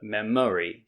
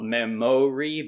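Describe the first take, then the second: First: The middle syllable has a reduced 'uh' vowel. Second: The middle syllable has a full vowel. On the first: The speaker calls it right. "but memory" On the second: The speaker calls it wrong. "So not memory"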